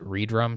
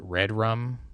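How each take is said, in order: First: It is split after re, then drum. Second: It is split as the words red, then rum. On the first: The name uses the re- prefix like related names. "I pronounce it Redrum" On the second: The name echoes the phrase from a horror film. "Some people pronounce it Red Rum, like uh, the thing from The Shining"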